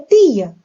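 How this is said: It is said with a European Portuguese accent.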